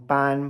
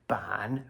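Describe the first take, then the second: First: The syllable is said with a high level tone. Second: The syllable is said with a low dipping tone. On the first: "another first tone ban" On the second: "ban, third tone"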